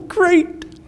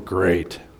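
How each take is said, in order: First: It is said with eager, excited enthusiasm. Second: It is said with weary, dismayed reluctance. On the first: The listener is thrilled about prophecy. "it just gets them really excited. And they say, oh, great" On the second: The listener dreads the topic. "You just say them with a little bit of a different inflection"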